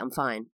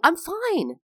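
First: The voice stays flat, with little pitch change. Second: The voice is lively, with much pitch change. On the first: The speaker is fine but may come across as angry or lying. "And I'll just say, I'm fine" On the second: The speaker signals happiness to the listener. "But because I'm not going, I'm fine. Or maybe that sounded fake"

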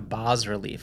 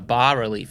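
First: The S in the first part is pronounced. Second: The S in the first part is silent. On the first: The speaker calls it wrong. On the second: The speaker calls it right.

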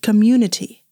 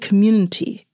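First: Every syllable of the word is clearly pronounced. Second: Some syllables of the word are dropped. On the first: The speaker calls it right. "That's the word" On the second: The speaker calls it wrong. "But I keep saying"

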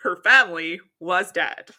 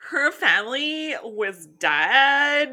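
First: It is read like a Fox News anchor. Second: It is read in a Valley Girl voice.

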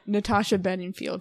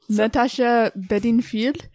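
First: The name is said in a normal accent. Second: The name is said in a French accent. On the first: "I'm back to normal" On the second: "There you go, French accent"

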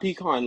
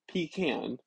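First: The last syllable sounds like 'con'. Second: The last syllable sounds like 'can'. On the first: The speaker calls it wrong. "Not pecan. Like a trash can. You don't call that shit trash con" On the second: The speaker calls it right. "It's literally the word is pecan"

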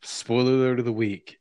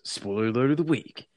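First: It is said in a normal voice. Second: It is said in a put-on voice.

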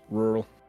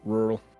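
First: The syllables blur together into one reduced sound. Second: The same.

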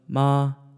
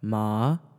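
First: The pitch stays high and level. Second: The pitch rises from mid to high. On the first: "first tone goes high" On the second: "you just go from your mid-tone to up"

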